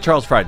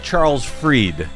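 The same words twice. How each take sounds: First: The surname sounds like 'fried'. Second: The surname sounds like 'freed'. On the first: The speaker calls it wrong. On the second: The speaker calls it right. "His name is"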